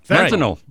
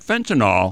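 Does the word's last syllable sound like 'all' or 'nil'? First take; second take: nil; all. First: The last syllable sounds like 'nil'. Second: The last syllable sounds like 'all'. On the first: The speaker calls it right. "It's NYL" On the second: The speaker calls it wrong. "But not fentanyl"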